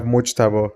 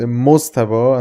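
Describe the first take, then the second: First: "Mujtaba" with SH or J before the T; Farsi and Arabic form. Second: "Mostaba" with a plain S before the T. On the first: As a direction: say "Mujtaba" as in Farsi, Moj-taba. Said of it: "in Farsi and Arabic we have". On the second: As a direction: say "Mostaba" as Mos-ta-ba. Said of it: "your name is". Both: Shown as a demonstration.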